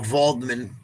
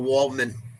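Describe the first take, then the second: First: The name begins with a V sound. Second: The name begins with a W sound. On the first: The speaker calls it right. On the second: The speaker calls it wrong.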